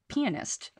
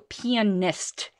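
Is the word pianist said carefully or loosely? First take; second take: loosely; carefully. First: The word is said loosely, with blurred syllables. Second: The word is said carefully, every syllable distinct. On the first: It can be misheard as a rude word. The speaker calls it wrong. "So if you ever say pianist" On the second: It cannot be misheard as a rude word. The speaker calls it right. "make sure you go pianist"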